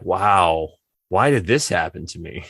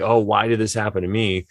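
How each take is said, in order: First: It sounds curious and full of wonder. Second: It sounds self-pitying and complaining.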